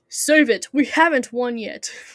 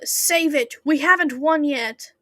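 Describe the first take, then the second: First: The voice sounds older and more commanding. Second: The voice sounds young and boyish.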